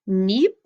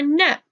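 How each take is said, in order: First: The vowel is a long E sound. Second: The vowel is a short E sound. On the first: "E A can say E" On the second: "or it can say eh"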